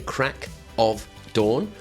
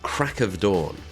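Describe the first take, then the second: First: Each word is said separately and clearly. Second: The words are squashed together into one. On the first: The speaker calls it wrong. "we don't say crack of dawn" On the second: The speaker calls it right. "We squash those words together"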